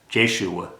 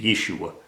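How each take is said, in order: First: The name begins with a J sound. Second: The name begins with a Y sound. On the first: The speaker calls it right. "pronounce it with a J" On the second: The speaker calls it wrong. "with the Y"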